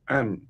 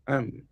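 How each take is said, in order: First: The words merge, with the vowel swallowed. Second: The words merge, with the vowel swallowed.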